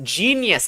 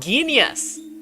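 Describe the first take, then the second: First: The word begins with a soft J sound. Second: The word begins with a hard G sound. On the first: The speaker calls it right. "it's pronounced genius" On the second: The speaker calls it wrong. "and not genius"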